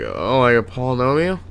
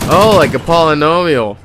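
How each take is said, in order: First: It is said in a weird voice. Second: It is said in a normal voice.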